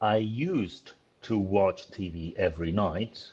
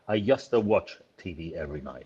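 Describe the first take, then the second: First: The words are said clearly and separately. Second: The words are run together and connected. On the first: "for you is ... like that" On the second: "It sounds in a film like"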